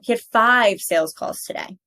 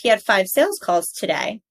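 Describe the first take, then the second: First: The stress falls on the word five. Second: The stress falls on the word today. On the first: The speaker is correcting someone about the number. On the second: A neutral statement of fact.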